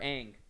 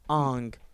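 First: The vowel sounds like the one in 'bang'. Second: The vowel sounds like the one in 'song'. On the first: The speaker calls it right. "It's fucking Yang, or Aang" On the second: The speaker calls it wrong. "Not Ong"

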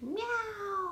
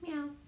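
First: It is screamed loudly, like a yowl. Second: It is said softly, like a normal meow.

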